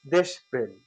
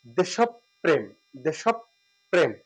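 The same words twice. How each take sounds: First: দেশপ্রেম said quickly as "desh-prem" without doubled p; common pronunciation. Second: দেশপ্রেম slowly as "desh-op-prem" with doubled p; correct pronunciation. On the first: Teacher shows what most people say, the clipped form. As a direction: clip দেশপ্রেম to "deshprem" the usual way. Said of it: "অধিকাংশ বলে থাকি". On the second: Teacher contrasts the common form with the correct one, slow. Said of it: "কিন্তু সঠিক উচ্চারণটা হচ্ছে". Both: Shown as a demonstration.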